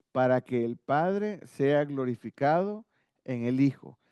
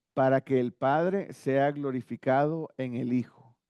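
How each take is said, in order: Both takes have the same delivery.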